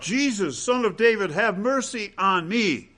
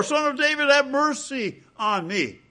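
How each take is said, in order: First: Crying out. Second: Crying out even more. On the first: Blind man near Jericho calling to Jesus, raised pleading cry. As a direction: call out for help, pitched up and pleading. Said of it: "he cried out". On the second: Blind man, rebuked by the crowd, cries higher and harder. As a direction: call out harder, pitch way up. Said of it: "But he cried all the more". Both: Retold or imitated.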